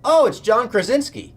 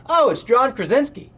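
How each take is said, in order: First: Blurting it out at full volume, high and loud. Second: High, loud excited blurt of a name. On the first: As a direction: yell the name out in a silent room. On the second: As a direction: shout it so the whole room hears. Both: Retold or imitated. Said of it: "As loud as he could have said it".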